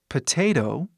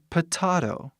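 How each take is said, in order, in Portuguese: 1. Ela é dita no dialeto do falante. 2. Ela é dita do jeito que outros dialetos dizem. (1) "que é o jeito que eu falo" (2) "tem outros dialetos que falam potato"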